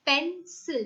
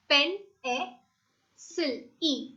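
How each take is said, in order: First: Said in the usual way. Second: Pen, a, sil, e: pencil broken into two separate beats; split into syllables. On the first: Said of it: "If I say pencil". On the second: Shown as a demonstration. Teacher breaking pencil into syllables for the class, clearly separated. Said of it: "so it's".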